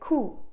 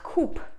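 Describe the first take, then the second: First: The word is pronounced the French way. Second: The word is pronounced the anglicized way. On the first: The speaker calls it right. "this word comes from French" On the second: The speaker calls it wrong. "and not coup"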